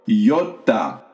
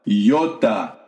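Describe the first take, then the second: The two takes are said the same way.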